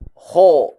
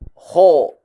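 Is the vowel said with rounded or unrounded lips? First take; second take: rounded; rounded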